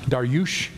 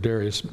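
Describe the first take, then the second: First: The name ends with an 'ush' sound. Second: The name ends with an 'us' sound. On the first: "the actual pronunciation of Darius is Darush" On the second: "I might just stick with Darius"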